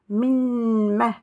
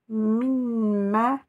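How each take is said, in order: Both takes have the same delivery.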